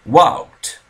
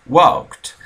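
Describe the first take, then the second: The two takes are said the same way.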